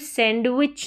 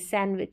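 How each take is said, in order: First: A d sound is pronounced after the n. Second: No d sound is pronounced after the n. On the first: The speaker calls it wrong. "फिर सैंडविच नहीं" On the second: The speaker calls it right. "डी का sound नहीं आएगा, silent रहेगा।"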